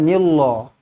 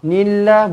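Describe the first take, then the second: First: The l sound is heavy and thick. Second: The l sound is light and thin. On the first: The speaker calls it wrong. "bukan nillah" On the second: The speaker calls it right. "dibaca dengan nipis"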